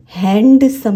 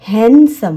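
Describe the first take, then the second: First: HANDsome with the D sounded in हैंडसम; stretched हैंडसम, hard D released; D pronounced. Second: हैंडसम said "han-sum", no D; silent D. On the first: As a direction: say हैंडसम wrongly with an audible "d" after the n. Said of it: "हैंडसम नहीं होता". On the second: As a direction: drop the D in हैंडसम, n straight into s. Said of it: "ये जो डी है ये silent होता है". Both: Shown as a demonstration.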